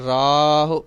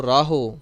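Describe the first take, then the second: First: ਰਾਹ said louder, ending on ਹ with aunkar; ਰਾਹ ਸਹੀ ਉਚਾਰਨ; correct pronunciation. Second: ਰਾਹੋ with a full o at the end; ਗਲਤ ਉਚਾਰਨ ਰਾਹੋ; wrong pronunciation. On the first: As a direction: land ਰਾਹ firmly. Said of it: "ਰਾਰੇ ਨੂੰ ਕੰਨਾ, ਹਾਹੇ ਨੂੰ ਔਂਕੜ". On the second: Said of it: "ਉਚਾਰਨ ਕਰ ਜਾਂਦੇ ਹਾਂ ਰਾਹੋ". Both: Shown as a demonstration.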